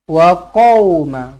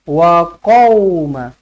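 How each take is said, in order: The two takes are said the same way.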